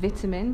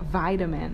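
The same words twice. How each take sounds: First: It is said in a British accent. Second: It is said in an American accent.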